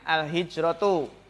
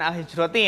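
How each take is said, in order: First: The word ends with a u vowel. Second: The word ends with an i vowel. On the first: The speaker calls it right. "Jadi yang pertama itu di domah biasanya" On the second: The speaker calls it wrong. "Jangan al-hijroti ya"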